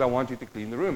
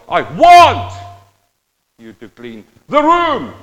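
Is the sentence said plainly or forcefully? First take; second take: plainly; forcefully. First: It is said plainly, without extra force. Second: It is said forcefully, like a shout.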